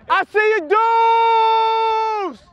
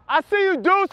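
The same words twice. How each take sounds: First: High, loud shout across the field; excited shout. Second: Toned-down greeting. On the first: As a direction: yell out to the guys, all excitement. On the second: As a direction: pull it back after shouting too loud. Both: Real, not acted. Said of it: "Oh, my bad".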